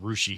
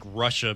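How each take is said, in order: First: The word ends in an 'ee' sound. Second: The word ends in an 'ah' sound. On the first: This is how the Ohio town is locally called. "being called Rushi here in Ohio" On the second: This is the country's usual name.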